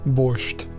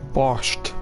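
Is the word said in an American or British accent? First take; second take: American; British. First: The word is said in an American accent. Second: The word is said in a British accent. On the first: "I'm with the American" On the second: "that's the British pronunciation"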